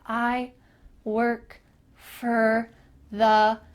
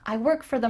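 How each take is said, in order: First: The words are said slowly and separately. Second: The words are said quickly and linked together. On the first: The speaker calls it wrong. "it's a little bit weird" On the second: The speaker calls it right. "You can link those two words together"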